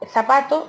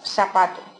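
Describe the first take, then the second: First: The word begins with a th sound. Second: The word begins with an s sound. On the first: This is the standard pronunciation. "pronunciar el sonido Z como S" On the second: This is how seseo speakers say it. "pronunciar el sonido Z como S"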